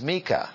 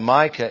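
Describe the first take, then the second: First: The name is said with Hebrew pronunciation. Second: The name is said with English pronunciation. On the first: The speaker calls it right. "in Hebrew is Micah" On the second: The speaker calls it wrong. "we anglicize them"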